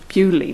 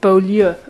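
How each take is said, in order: First: The name is said in an anglicised British way. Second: The name is said in a non-British, French-like way. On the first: "in a British way, which would be to say Bewley" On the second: "I'm trying not to pronounce this in a British way"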